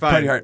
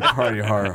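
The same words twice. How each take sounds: First: The word hard is short and plain. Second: The word hard is drawn out, echoing.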